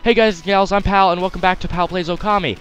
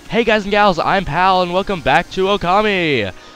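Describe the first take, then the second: First: It is said in the speaker's natural voice. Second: It is said in a put-on zombie ghost voice.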